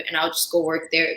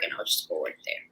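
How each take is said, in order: First: Said in the usual way. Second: Whispered to herself, fast. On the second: Retold or imitated. Plotting to herself about the boyfriend's restaurant, whispered. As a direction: let the plan slip out in a whisper, quickly. Repeats her plan as a secret.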